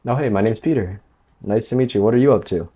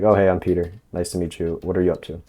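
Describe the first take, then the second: First: "Peter", "meet you", "up to" lifted higher, very friendly and eager; rapport-seeking upward lilt. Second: "I'm Peter", "meet you", "up to" kept level, no upward lilt; even tone. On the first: Coach showing men how not to greet a woman, over-friendly upward lilt. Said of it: "going up at the end of your sentences". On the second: Coach showing the right greeting, even relaxed tone on "Peter" and "up to". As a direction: say "nice to meet you" and "what are you up to" evenly, dropping off casually. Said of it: "So just be even, like I'm talking now".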